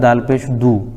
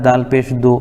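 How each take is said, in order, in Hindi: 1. आख़िरी स्वर लंबे 'u' जैसा सुनाई देता है। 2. आख़िरी स्वर लंबे 'o' जैसा सुनाई देता है। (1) "दू सही है" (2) "दो गलत है"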